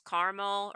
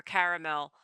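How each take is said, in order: First: "caramel" said as CAR-mul; "caramel" with the middle vowel dropped, KAR-mel; two-syllable pronunciation. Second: "caramel" said as CARE-uh-mel; "caramel" with the middle vowel kept, KA-ruh-mel; three-syllable pronunciation. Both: Shown as a demonstration. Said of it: "how do you pronounce".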